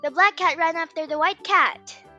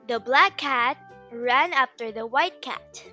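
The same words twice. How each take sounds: First: The sentence is spoken at a very fast speed. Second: The sentence is spoken at a moderate speed.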